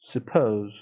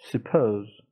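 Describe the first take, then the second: The two takes are said the same way.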